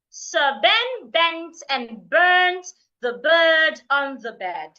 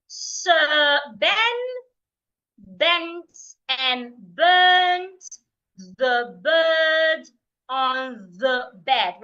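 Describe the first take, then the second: First: The sentence is said fast. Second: The sentence is said slowly. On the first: "Let's take it faster" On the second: "I will say it slowly first"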